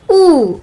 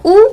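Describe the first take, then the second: First: ऊ held long; long vowel ऊ. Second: ऊ cut short; short vowel ऊ. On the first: Teacher drilling short against long, long ऊ. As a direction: stretch ऊ out. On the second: Teacher drilling short against long, short ऊ. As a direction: say ऊ as a brief vowel. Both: Shown as a demonstration. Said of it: "इस तरह से इनका हमें उच्चारण".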